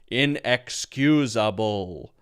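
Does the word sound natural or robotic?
robotic. Said like a robot, every syllable flat and even.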